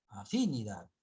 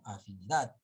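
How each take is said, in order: First: Afinidad wrongly stressed on the second syllable, a-FI-nidad; misplaced stress. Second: Afinidad stressed on its last syllable, afini-DAD; stress on final syllable. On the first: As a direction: punch FI in afinidad, let -nidad drop. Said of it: "Nosotros no leemos afinidad". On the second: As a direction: hit DAD at the end of afinidad. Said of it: "sino afinidad". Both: Shown as a demonstration.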